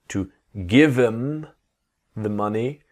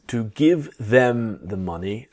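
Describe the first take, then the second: First: The word 'them' is reduced to 'em'. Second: The word 'them' is said in full.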